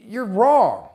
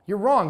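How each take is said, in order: First: Slow, louder blunt verdict with a falling wrong; firm rebuke. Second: Said in the usual way. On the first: Retold or imitated. Speaker telling the auto shop owner he is wrong, firm. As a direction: plant your feet and tell him straight.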